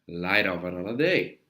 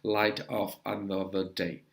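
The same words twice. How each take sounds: First: The final consonants link into the following vowels. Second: The words are said separately, without linking. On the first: The speaker calls it right. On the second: The speaker calls it wrong.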